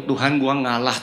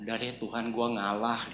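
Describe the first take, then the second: First: Said in the usual way. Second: Soft, subdued resigned murmur to God; inner surrender. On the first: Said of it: "Benar saya ngomong gitu". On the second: Retold or imitated. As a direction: give in quietly, as if praying inwardly. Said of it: "saya dalam hati ngomong".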